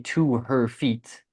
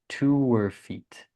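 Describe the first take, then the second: First: The H in 'her' is fully pronounced. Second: The H is dropped, linking 'to' and 'her'. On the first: The speaker calls it wrong. "we don't say to her feet" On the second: The speaker calls it right. "We just say to her feet"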